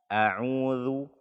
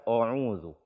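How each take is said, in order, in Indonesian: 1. Hamzah di awal terdengar ringan dan tipis. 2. Hamzah di awal terdengar berat dan tebal. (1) "Harus dibaca dengan tipis" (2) "Tidak boleh dibaca a'udzu"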